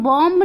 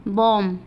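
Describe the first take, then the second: First: बॉम्ब said with the final b sounded, bomb; बॉम्ब with a clear final b; wrong pronunciation with b. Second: बॉम्ब said bom, the b silent; बॉम्ब ends on m, no b; बॉम्ब as bom, final b dropped. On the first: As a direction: pronounce the b at the end of बॉम्ब. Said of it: "इसको हम बॉम्ब नहीं पढ़ सकते". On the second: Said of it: "हम इसको क्या पढ़ेंगे". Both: Shown as a demonstration.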